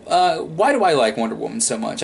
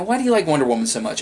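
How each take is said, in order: First: Said in the usual way. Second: Quoted question. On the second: Retold or imitated. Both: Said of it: "I've been asked that".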